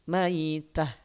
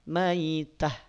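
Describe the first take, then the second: The two takes are said the same way.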